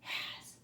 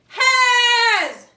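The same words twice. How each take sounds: First: The word is whispered softly. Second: The word is shouted loudly. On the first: "Now whisper it" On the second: "Now shout it"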